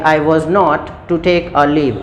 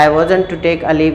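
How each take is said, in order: First: 'Was not' is said as two full words. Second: 'Was not' is contracted into one word. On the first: "आप दोनों तरीके से use कर सकते हैं" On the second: "आप दोनों तरीके से यूज़ कर सकते हैं"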